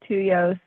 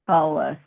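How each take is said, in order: First: The middle consonant sounds like a Y. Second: The middle consonant sounds like an L. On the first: The speaker calls it wrong. "They want to say Tulos or Tuyos" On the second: The speaker calls it right. "It's Tullus"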